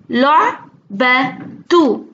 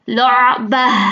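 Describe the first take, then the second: First: The word ends with a 't' plus 'u' vowel. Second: The word ends with an 'a' sound, no 't'.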